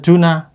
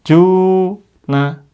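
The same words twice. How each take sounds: First: The first vowel is cut short. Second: The first vowel is held long. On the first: The speaker calls it wrong. "Jangan dibaca juna" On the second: The speaker calls it right. "Ju-nya panjang"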